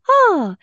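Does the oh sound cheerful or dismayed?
cheerful. The oh sounds light and cheerful. The situation is seen from a positive side. "so eine Leichtigkeit reinzubringen"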